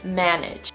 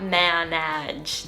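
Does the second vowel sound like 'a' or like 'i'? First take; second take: i; a. First: The second vowel sounds like an 'i'. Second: The second vowel sounds like an 'a'. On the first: The speaker calls it right. "the second A is pronounced as more of an I sound" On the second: The speaker calls it wrong. "not manage. That just sounds so weird"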